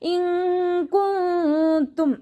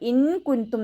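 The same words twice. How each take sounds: First: The n sound is hidden and nasalized. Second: The n sound is pronounced clearly. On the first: The speaker calls it right. "നൂനിന്റെ സൗണ്ടിനെ ഹൈഡ് ചെയ്യും ചെയ്യുക, മണിക്കും ചെയ്യുക" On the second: The speaker calls it wrong. "അവിടെ ഓതരുത്"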